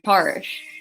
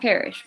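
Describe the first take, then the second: First: The word is said with an odd accent. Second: The word has its usual standard pronunciation. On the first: "It's some weird accent trying to pronounce it there" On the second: "not perish"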